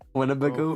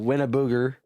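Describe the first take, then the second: First: The word ends with a 'bago' sound. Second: The word ends with a 'booger' sound. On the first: The speaker calls it right. "how do you say it?" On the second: The speaker calls it wrong. "I said it wrong uh, on purpose"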